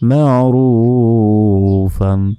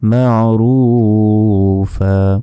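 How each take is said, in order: First: The word ends with an n sound. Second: The word ends with an open vowel. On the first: "দুই জবর" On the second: "থামলে দুই জবর ওয়াকফ করলে একটি জবরের উচ্চারণ"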